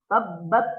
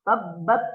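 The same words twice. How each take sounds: First: The t has only a slight puff of air. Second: The same.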